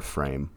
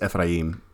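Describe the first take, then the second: First: The name is said in a familiar English form. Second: The name is said close to its Hebrew form. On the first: "I've always heard it as Ephraim" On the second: "It's roughly what it would how you pronounce it in Hebrew"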